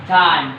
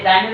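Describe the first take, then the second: First: টাইম with a breath-puffed T, like ঠ; টাইম opening on ঠ, not ট; correct aspirated T. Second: টাইমের with an unaspirated hard ট; টাইমের opening on Bangla ট, not ঠ; mispronounced T. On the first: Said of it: "টাইমের উচ্চারণ কি হবে". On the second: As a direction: say the T in টাইমের without a puff. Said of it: "আমি ভুল উচ্চারণ করবো". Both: Shown as a demonstration.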